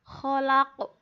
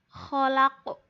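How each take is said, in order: The two takes are said the same way.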